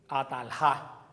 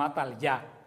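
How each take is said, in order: First: The last syllable starts with a harsh h-like sound. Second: The last syllable starts with a y sound. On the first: The name would honor the form Jehová. The speaker calls it wrong. "Si hubiera sido Jehová" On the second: The name honors the form Yahvé. The speaker calls it right. "pero el nombre es Atalyá"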